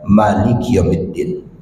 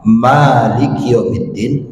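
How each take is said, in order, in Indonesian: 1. Vokal setelah m dibaca pendek. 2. Vokal setelah m dibaca panjang. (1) "bisa dengan mim yang yang pendek" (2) "Bisa dengan mim yang panjang"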